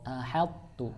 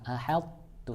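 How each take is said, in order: No difference in how they are said.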